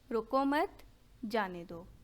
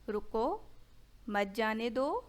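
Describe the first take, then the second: First: There is a pause after 'mat'. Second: There is a pause after 'ruko'.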